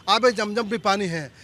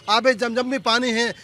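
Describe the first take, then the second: No difference in how they are said.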